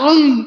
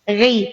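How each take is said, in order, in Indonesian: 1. Bunyi konsonannya tebal penuh. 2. Bunyi konsonannya hanya sebagian tebal, lebih ringan. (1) "Bukan ri" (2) "Inilah tafkhim nisbi"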